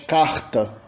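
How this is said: It is said in a Rio/Northeast accent. "no Rio de Janeiro e no Nordeste"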